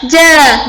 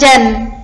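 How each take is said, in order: First: The syllable ends on a bare vowel. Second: The syllable ends with an n sound. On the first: The speaker calls it right. "Bacanya wa min haja, ja bukan jan" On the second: The speaker calls it wrong. "bukan jan"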